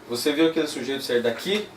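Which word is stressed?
daqui. The stress falls on the word daqui. "vamos para a última"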